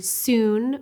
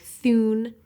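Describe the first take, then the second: First: Said in the usual way. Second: "thun" with the tongue between the teeth, th for s; interdental lisp. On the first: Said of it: "The word soon would sound like". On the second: Shown as a demonstration. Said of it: "would sound like thun".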